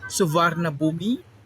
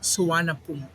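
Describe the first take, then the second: First: It is read with every written letter sounded. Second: It is said with some written letters left silent. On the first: "when you say it in English, you can read as" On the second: "but in Thailand they say it"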